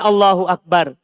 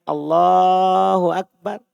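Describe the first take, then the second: First: The phrase is said short, not stretched. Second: The voice is stretched out long.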